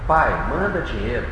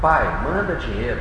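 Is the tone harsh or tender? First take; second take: tender; tender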